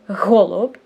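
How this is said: The first sound is pushed out with effortful breath. "It's like I put an effort to exhale"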